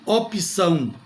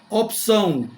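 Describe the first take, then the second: First: An extra i vowel separates the p and ç. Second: The p and ç join with no vowel between. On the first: The speaker calls it wrong. "não vai soar muito bem" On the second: The speaker calls it right. "Opção e não opção"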